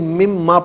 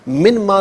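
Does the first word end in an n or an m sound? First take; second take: m; n. First: The n merges into a nasalized m. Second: The first word ends in a clear n. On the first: The speaker calls it right. "बल्कि मिम मा पढ़ेंगे" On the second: The speaker calls it wrong. "मिन मा नहीं"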